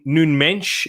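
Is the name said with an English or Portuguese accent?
Portuguese. The name is said with a Portuguese accent. "that's how you meant to pronounce it in a Portuguese accent"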